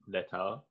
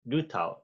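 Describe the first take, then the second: First: The first syllable sounds like 'leh'. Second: The first syllable sounds like 'loo'. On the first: It is read the way it is spelled. "it's spelled Letao" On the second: It is said the way the locals say it. "but they say Lutao"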